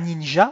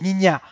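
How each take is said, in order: First: The word is said with a French pronunciation. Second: The word is said with a Dutch pronunciation. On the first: "on ne dit pas ninja" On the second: "en néerlandais, on dit ninja"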